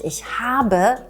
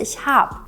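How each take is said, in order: First: Habe is said in full with two syllables. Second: Habe is shortened to one syllable, hab. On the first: This is the careful classroom form. "wenn wir im Unterricht ich habe lernen" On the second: This is the casual everyday form. "dann sagen wir auf der Straße ich hab"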